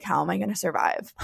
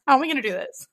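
First: Said in the usual way. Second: Much higher, fast, half-laughing half-crying; laughing through tears. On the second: Retold or imitated. Mom retelling her panic about leaving her baby, laughing and tearful. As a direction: let the laugh crack into a sob. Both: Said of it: "I literally was like".

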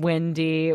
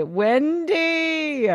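First: Said in the usual way. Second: Higher, sung-out Wendy; calling Wendy high. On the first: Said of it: "first call of the name". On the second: Shown as a demonstration. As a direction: call out Wendy up high and drawn out. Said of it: "repeats the name, higher".

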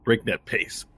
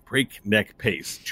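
First: Said in the usual way. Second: "Breakneck pace" slowly, each word distinct; slow, careful repeat. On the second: Real, not acted. Narrator repeating "Breakneck pace", slow and clearly articulated. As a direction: stretch out "Breakneck pace" deliberately.

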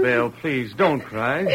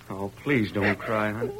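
First: Soft and slow, pleading; tender plea. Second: Hushed, lower and softer, almost murmured; softer plea. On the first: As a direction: coax her gently to stop crying. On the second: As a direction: sink to a near murmur of comfort. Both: Acted. Husband consoling crying wife.

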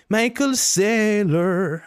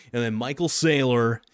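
First: Michael Saylor stretched very slow and much higher; odd put-on voice, very slow, high and louder; drawn-out name. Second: Said in the usual way. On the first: Shown as a demonstration. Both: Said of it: "I don't know why I say that like that".

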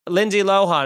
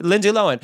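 First: "Lohan" said as LO-hahn; usual pronunciation. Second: "Lohan" said as LO-en; corrected pronunciation. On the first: Someone using the familiar name, "Lohan" as LO-hahn. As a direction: say "Lohan" with a full h and open ah. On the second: People accepting the correction, "Lohan" as LO-en. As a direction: drop the h in "Lohan", rhyming with Owen. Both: Retold or imitated. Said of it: "Oh, it's actually Lohan".

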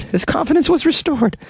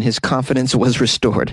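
First: Very high-pitched mocking echo; comic squeaky repeat. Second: Said in the usual way. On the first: Host jokingly echoes the doctor's quote, comic squeaky voice.

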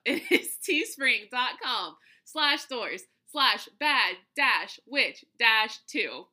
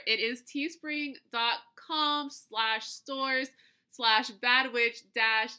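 First: Slow, laughing second try at the link; slow dictation. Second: Slow, careful spelling of a web address; slow dictation. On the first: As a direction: read the address out slowly, laughing. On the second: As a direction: read the link out slowly. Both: Real, not acted. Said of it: "nope, I messed it up".

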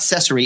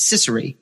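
First: Cesare with "sess" as first syllable; mispronounced surname. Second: Cicere with "siss" as first syllable; corrected surname. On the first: Correcting a colleague, giving the mistaken Cesare, "sess-" first. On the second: Correcting a colleague privately, giving Cicere with "siss-" first. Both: Retold or imitated. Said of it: "it's not Cesare, it's Cicere".

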